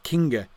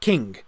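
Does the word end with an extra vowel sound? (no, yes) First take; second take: yes; no. First: The word ends with an added final vowel sound. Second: The word ends on the consonant, no final vowel. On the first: The speaker calls it wrong. "it's not kinga" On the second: The speaker calls it right. "So this is just king, no terminal E"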